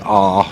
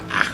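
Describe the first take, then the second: First: The vowel is said the southern English way. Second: The vowel is said the northern English way. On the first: The speaker is from the south of England. "If you do it like me, ah sound, you're from down south" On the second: The speaker is from the north of England. "you're from up north"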